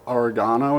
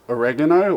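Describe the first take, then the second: First: Oregano is said the Australian way. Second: Oregano is said in a non-Australian way.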